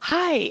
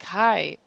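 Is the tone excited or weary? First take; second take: excited; weary. First: It is said with excited energy. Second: It is said quietly and wearily.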